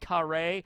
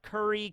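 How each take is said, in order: First: It is said with Japanese pronunciation, 'kare'. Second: It is said with English pronunciation, 'curry'. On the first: "in Japanese, curry is actually pronounced more with like a kare" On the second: "So not curry"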